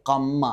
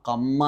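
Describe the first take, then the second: No difference in how they are said.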